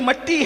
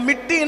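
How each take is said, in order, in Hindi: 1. पहला स्वर 'a' की ध्वनि है। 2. पहला स्वर 'i' की ध्वनि है। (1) "असल उर्दू के तलफ़ुज़ में ... बल्कि मट्टी है" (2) "तो मिट्टी नहीं"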